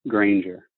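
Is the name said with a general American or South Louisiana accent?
general American. The name is said with a general American accent.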